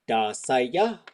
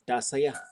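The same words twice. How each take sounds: First: It is said slowly with exaggerated pitch emphasis. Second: It is said casually with a slight pitch difference. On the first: The sounds are being highlighted for learners. "when I'm teaching that, I'm probably going" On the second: This is how it sounds in ordinary speech. "if I were just to say it"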